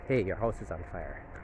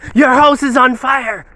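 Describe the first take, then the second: First: It is said calmly and gently. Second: It is said in a startling, alarming way.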